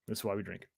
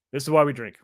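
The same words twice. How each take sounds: First: 1 low mutter. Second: Said in the usual way. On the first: Real, not acted. Muttered repeat of the line.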